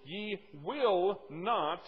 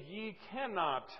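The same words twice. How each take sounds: First: "will not" drawn out very slowly and louder; stress on WILL NOT. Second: "cannot" slowed and set apart, without extra force; contrasted wrong wording. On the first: Preacher points listeners to the verse's wording, drawn-out stress on "will not". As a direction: lean long and hard on "will not". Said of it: "I want you to listen carefully". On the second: Preacher shows what the verse does not say, slow stress on "cannot". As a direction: hold up "cannot" slowly as the rejected word. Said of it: "It does not say". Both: Shown as a demonstration.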